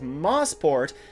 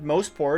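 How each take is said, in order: First: The first syllable sounds like 'moss'. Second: The first syllable sounds like 'moe'. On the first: The speaker calls it wrong. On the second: The speaker calls it right.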